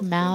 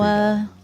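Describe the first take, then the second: First: The name ends in an 'ow' sound. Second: The name ends in an 'ah' sound. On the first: "I've heard it pronounced Mao" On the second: "Or like Maua"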